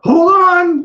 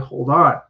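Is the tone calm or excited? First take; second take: excited; calm. First: It is said in an excited tone. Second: It is said in a calm tone.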